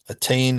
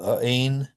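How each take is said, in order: First: The middle T is a full T sound. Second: The middle T is a glottal stop. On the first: The speaker calls it right. "is fine" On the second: The speaker calls it wrong. "no good"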